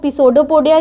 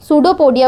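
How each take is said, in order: First: The word begins with a sounded p. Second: The word begins with an s sound. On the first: The speaker calls it wrong. "इसको पिसोडोपोडिया क्यों नहीं बोलते" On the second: The speaker calls it right. "क्योंकि पी silent होता है पहला"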